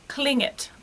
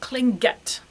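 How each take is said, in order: First: The g is soft, without a hard stop. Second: The g is hard, with a firm stop. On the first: The speaker calls it right. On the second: The speaker calls it wrong.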